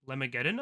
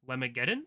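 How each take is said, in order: No difference in how they are said.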